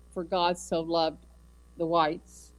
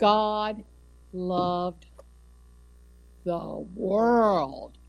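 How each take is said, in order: First: Mock misquote. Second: God loved the world, spaced out and weighty; true verse. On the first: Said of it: "nowhere does it say that". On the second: Shown as a demonstration. Preacher correcting the misquote for the congregation, emphatic. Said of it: "It doesn't matter what color you are".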